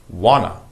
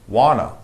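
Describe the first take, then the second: No difference in how they are said.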